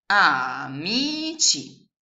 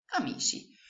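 First: Very slow, louder "amici" as A-MI-CI; syllable by syllable. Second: Said in the usual way. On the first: Shown as a demonstration. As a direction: drag out "amici" one syllable at a time. ("amici" scandito lentamente) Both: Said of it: "Quindi la frase che voi avete costruito".

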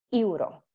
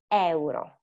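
First: EURO said English-style as "yu-ro"; learner's mistake. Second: EURO in Italian as "e-u-ro"; both vowels pronounced. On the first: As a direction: merge the E and U of EURO into one "yu" sound. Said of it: "it's difficult because you will say". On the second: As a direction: sound E, then U, at the start of EURO. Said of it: "you have to pronounce them both". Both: Shown as a demonstration.

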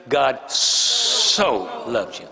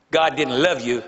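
First: "so" drawn out very slowly; stress on so. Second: Said in the usual way. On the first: Shown as a demonstration. Preacher telling the congregation they are loved, slow "so". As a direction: savor the "so" in a slow, stretched line.

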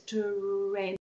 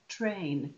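First: "train" split as t, long rolling r, then "ain"; sound-box blend. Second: Said in the usual way. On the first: Shown as a demonstration. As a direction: pull the tr in "train" apart as "tuh-rrain". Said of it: "use the sound boxes". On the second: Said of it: "the sound boxes will help them".

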